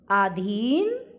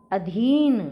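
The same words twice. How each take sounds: First: अधीन with a long first vowel, "aa-dheen"; mispronounced अधीन. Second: अधीन with short first vowel, "a-dheen", louder; short a, then a strong long "dheen" in अधीन; correct अधीन. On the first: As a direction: stretch the opening a of अधीन. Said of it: "अधीन नहीं होता". (अधीन का गलत उच्चारण, "आधीन") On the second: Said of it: "अधीन होता है". (अधीन में छोटा अ, ज़ोर से) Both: Shown as a demonstration.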